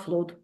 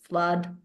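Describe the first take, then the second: First: The vowel is a long oo sound. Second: The vowel is not an oo sound. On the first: The speaker calls it wrong. "in Russian we say flood, but it's not flood" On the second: The speaker calls it right. "it's flood"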